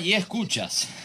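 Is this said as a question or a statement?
statement. The voice falls at the end, like a statement. The greeting is addressed to the listeners. "Ah, y escuchas"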